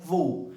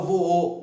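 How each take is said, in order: First: "vou" run together in one smooth sound; the everyday one-syllable "vou". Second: "voou" split as vo-ou, the second vowel sounded separately; "vo-ou", pulled apart into two beats. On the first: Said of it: "a pronúncia tenha um som". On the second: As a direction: demonstrate the unnatural "vo-ou" with two vowels. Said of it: "Ninguém fala voou". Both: Shown as a demonstration.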